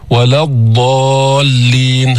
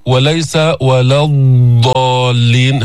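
First: الضالين with the ض drawn out long, then a clear doubled lam; elongated ḍād. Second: الضالين with the ض over-stretched and no shadda, wrong; overdone ḍād. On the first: Tajweed teacher demonstrating istitala of ض, slow and drawn out. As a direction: stretch the ض in الضالين slowly before the lam. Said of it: "هكذا". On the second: Teacher showing students the exaggerated wrong way. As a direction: drag out ض in الضالين too long, losing the doubled lam. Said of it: "هكذا تكون بالغت فيها". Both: Shown as a demonstration.

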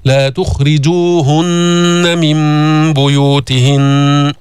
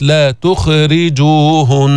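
First: Slow chant, تخرجوهن with a full خ closing its syllable; heavy, vowelless kha. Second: تخرجوهن with an extra vowel after خ; wrongly vowelled kha. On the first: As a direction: recite تخرجوهن with no vowel after خ. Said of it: "فخمها وسكنها". (تخرجوهن بخاء مفخمة ساكنة) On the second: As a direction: let the خ in تخرجوهن bounce into a vowel. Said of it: "ما تحرك الخاء". (تخرجوهن بتحريك الخاء) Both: Shown as a demonstration.

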